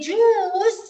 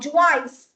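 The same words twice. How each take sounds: First: The second vowel letter is not pronounced. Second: The second vowel letter is pronounced aloud. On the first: The speaker calls it right. "We say juice" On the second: The speaker calls it wrong. "we don't say juice"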